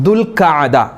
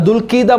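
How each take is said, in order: First: A short 'a' vowel follows the 'kh'. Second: An 'i' vowel follows the 'kh'. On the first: The speaker calls it right. "ദുൽഖഅദ എന്നാണ് അതിൻ്റെ ഉച്ചാരണം" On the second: The speaker calls it wrong. "അങ്ങനെ പല രൂപത്തിലാണ് ആളുകൾ പറയാറുള്ളത്"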